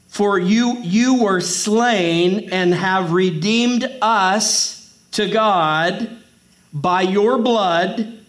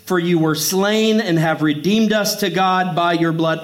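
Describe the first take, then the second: First: It is read slowly and deliberately. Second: It is read at normal speed.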